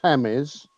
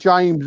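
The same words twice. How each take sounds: First: The name begins with an H sound. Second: The name begins with a J sound. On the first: This is the Spanish way of saying it. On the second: This is the English way of saying it.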